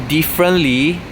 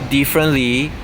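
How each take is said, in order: The two takes are said the same way.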